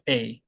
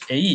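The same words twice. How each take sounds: First: A as one falling glide; falling diphthong. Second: A as two even syllables; Korean-style mispronunciation. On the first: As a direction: say 'A' sliding down. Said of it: "이렇게 떨어져야". (A를 아래로 떨어지는 이중모음으로) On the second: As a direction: say 'A' split like e-i. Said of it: "A 이렇게 하기가 쉬운데". (A를 '에-이'로 평평하게) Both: Shown as a demonstration.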